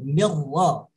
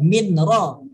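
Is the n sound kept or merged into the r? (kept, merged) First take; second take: merged; kept. First: The n merges fully into the r sound. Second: The n is heard separately before the r. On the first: The speaker calls it right. "tapi mir ro" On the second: The speaker calls it wrong. "bukan min ro"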